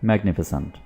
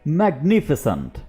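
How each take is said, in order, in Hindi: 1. यह सपाट, बिना जोश के बोला जाता है। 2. यह जोशीले, प्रशंसा भरे अंदाज़ में बोला जाता है। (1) "आप सिंपली ऐसे मत बोलिएगा" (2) "आपने थोड़ा सा आवाज में जान लेकर आनी है। ठीक है, जैसे"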